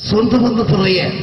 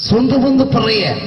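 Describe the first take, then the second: Both takes have the same delivery.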